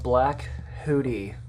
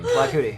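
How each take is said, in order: First: Said carefully, with a clear h sound. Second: Said fast, the h blurring into a k. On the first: "I say it like that because" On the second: "That's what it sounds like"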